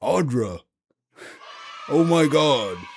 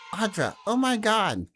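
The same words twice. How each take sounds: First: It is said in a teenager's voice. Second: It is said in a small child's voice.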